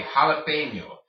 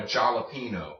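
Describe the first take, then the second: First: Jalapeño as ha-la-PEN-yo; loud, clear jalapeño with ny; jalapeño pronounced the Spanish way. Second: Jalapeno as jal-a-PEE-no; hard English J in jalapeno, plain N; wrong English J. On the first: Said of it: "J makes the H sound". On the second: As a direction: jalapeno read as spelt in English. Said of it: "It is not called". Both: Shown as a demonstration.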